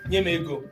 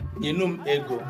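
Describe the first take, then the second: First: It is said in a rude, disrespectful tone. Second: It is said in a polite, respectful tone. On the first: The speaker is unhappy and feels forced. "it will be sounding rude" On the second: The speaker is respectful and agreeable. "it sounds polite"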